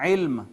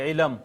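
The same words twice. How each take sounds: First: علم with the لام silent, one closed syllable; correct pronunciation. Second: علم with an extra vowel between لام and میم; wrong pronunciation. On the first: Teacher shows the correct form after the wrong one. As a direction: say علم crisply, لام with no vowel. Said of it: "لام ساکن ہے". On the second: Teacher demonstrates the common mispronunciation to students. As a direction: say علم the mistaken way, split into two syllables. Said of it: "علم غلط ہے". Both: Shown as a demonstration.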